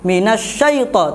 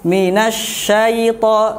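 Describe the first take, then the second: First: The syllable is pressed hard and forcefully. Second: The syllable is said softly and lightly. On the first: The speaker calls it wrong. "tidak usah ditekan" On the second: The speaker calls it right.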